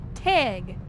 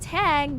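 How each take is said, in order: First: The vowel sounds close to an e sound. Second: The vowel is a plain, open a sound. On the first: "They say it like it has an E in it" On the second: "So instead of tag"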